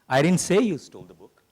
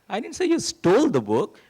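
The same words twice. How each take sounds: First: The stress is on "say". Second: The stress is on "stole".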